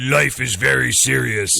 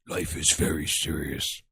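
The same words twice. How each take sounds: First: It is said louder, to be heard. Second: It is said very quietly, almost whispered.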